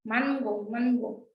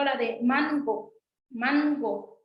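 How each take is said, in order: First: "mango" repeated, "ng" held at the back; "mango" said twice, nasal at the back; "mango" demo of the velar nasal. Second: "mango" with a clear velar "ng"; "mango" with the n pulled back to the velum; nasal mango demo. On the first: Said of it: "esa na es nasal". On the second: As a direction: show how "mango" rings nasal. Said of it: "Si se dan cuenta". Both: Shown as a demonstration.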